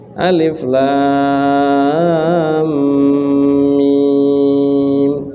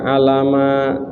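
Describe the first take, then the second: First: Each letter is said separately by its name. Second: The letters are blended into one short word. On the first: The speaker calls it right. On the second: The speaker calls it wrong.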